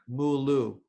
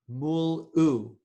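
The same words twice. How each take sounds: First: The two syllables run together smoothly. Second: A throat catch separates the two syllables. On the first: The speaker calls it wrong. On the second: The speaker calls it right.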